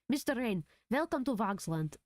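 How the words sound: It is said with a Transylvanian accent.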